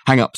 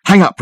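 First: Said in the usual way. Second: "Hang up" higher and louder, firm; insistent repeat. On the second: Acted. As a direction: bark "Hang up" as an order. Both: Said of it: "repeated Dirk".

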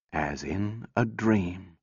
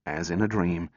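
First: Slow, soft, dreamlike repeat; slow hushed echo. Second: Said in the usual way. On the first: A narrator's reading. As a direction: let the words drift away quietly. Echoed slower and softer.

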